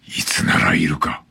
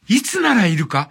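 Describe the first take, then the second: First: It is read in a dark, gloomy voice. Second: It sounds light, like a child talking alone. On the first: Someone is checking whether a person is present. "これを暗い声で読む" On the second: Someone is idly talking to themselves. "子供の独り言のように"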